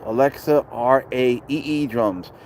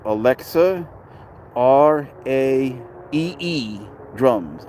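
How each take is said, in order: First: Said in the usual way. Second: Slow spelling out. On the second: Shown as a demonstration. Streamer tells Rich to write it down, slow spelling out. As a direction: spell R A E E slowly, letter by letter. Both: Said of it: "write this down".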